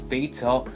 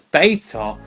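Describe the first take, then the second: First: It is said in a British accent. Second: It is said in an American accent. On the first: "Us in the U K, we pronounce it as beta" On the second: "You guys pronounce it as beta"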